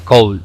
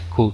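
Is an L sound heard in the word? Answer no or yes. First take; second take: yes; no. First: An L sound is heard in the word. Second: No L sound; a short vowel is used. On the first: The speaker calls it wrong. "no se dice cold" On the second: The speaker calls it right. "Se dice could. La L no suena"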